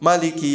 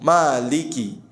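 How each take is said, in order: First: The vowel after the m is kept short. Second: The vowel after the m is held long. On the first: "Boleh pendek semua" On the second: "mimnya panjang"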